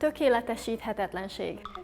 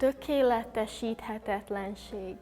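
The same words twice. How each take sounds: First: The word is said at a normal pace. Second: The word is said slowly and deliberately. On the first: "You need to pronounce everything, as I said" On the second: "Can you say it one time slowly?"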